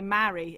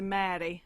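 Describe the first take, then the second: First: It is said in a Midlands English accent. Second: It is said in a Scottish accent. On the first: "I would say marry in my accent, which is sort of Midlands English" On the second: "It's closer to Mary, Mary, um, in in Scottish accent"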